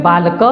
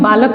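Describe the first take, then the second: First: बालक with the final a sounded after the k; बालक with an audible vowel at the end; Sanskrit pronunciation. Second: बालक ending on a closed k, no vowel after it; बालक with its final a left silent; Hindi pronunciation. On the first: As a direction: say बालक the Sanskrit way, ending on an open "ka". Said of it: "वो संस्कृत में बालक पढ़ते हैं". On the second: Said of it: "Hindi में हम बालक को सिर्फ बालक पढ़ते हैं". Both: Shown as a demonstration.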